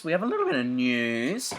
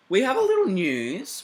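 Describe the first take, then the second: First: Said in the usual way. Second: Singsong. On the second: Acted. Singsong news teaser.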